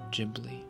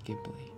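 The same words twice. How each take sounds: First: It begins with a soft J sound. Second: It begins with a hard G sound. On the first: The speaker calls it right. "Pronunciation Ghibli, ... So G for gender" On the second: The speaker calls it wrong. "not Ghibli"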